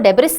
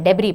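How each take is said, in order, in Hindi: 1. "debris" के अंत में s की आवाज़ साफ़ सुनाई देती है। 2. "debris" के अंत में s की कोई आवाज़ नहीं होती, वह साइलेंट होता है। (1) "इसको डेब्रिस नहीं पढ़ते हैं" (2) "एस साइलेंट होता है, डेब्री पढ़ते हैं"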